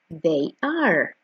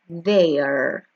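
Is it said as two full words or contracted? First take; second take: two words; contracted. First: Both words are said fully and separately. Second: The two words are joined into one syllable. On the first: "La forma larga es esta" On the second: "Escuchemos la contraction"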